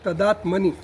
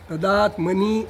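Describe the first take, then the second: First: The final vowel is short and clipped. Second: The final vowel is drawn out long. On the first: The speaker calls it right. "એમ બોલવાનું" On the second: The speaker calls it wrong. "એમ ખેંચવાનું નહીં"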